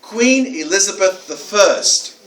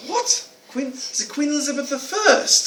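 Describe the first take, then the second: First: Slow, evenly spaced imitated answer; deliberate boy's answer. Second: High-pitched, stumbling astonished query; incredulous echo question. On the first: Boy answering the author's question, slow deliberate answer. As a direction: give each word its time, stated as fact. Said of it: "this boy said". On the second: Retold or imitated. Author to boy after unexpected answer, incredulous echo question. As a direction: replay disbelief, pitched right up.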